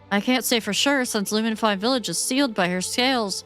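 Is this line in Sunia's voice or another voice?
another voice. It is said in a voice not Sunia's.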